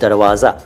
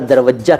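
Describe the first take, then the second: First: It has a long middle vowel and a z sound. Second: It has a short middle vowel and a doubled j. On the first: The speaker calls it right. "दरवाज़ा फारसी का है" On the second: The speaker calls it wrong. "जिसको कई बार दरवज्जा कहते हैं कुछ लोग"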